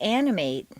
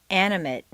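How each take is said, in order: First: The last syllable has a full 'ay' vowel. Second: The last syllable has a weak reduced vowel. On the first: It is used as a verb. "a full a sound" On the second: It is used as a noun or adjective. "completely reduced to mt"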